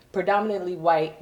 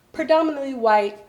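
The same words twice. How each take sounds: First: Said in the usual way. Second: Higher, louder punch on Predominantly; stressed repeat. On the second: Acted. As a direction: lean hard on "Predominantly".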